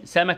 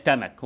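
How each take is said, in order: First: Said in the usual way. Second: تمك with t replacing the opening s; child's تمك, t-initial; child's substitution error. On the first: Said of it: "سمك يقول لك". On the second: Shown as a demonstration. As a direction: say تمك, first sound stopped into t. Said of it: "صوت يتحول لصوت تاني".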